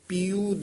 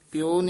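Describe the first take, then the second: First: The word ends with a long u sound. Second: The word ends with an o sound. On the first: The speaker calls it right. "ਪੂਰੇ ਦੇ ਦਲੈਂਕੜ ਹਨ, ਦੀਰਘ ਲਾਉਣੇ ਹਨ" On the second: The speaker calls it wrong. "ਪਿਓ ਨਹੀਂ ਕਹਿ ਦੇਣਾ"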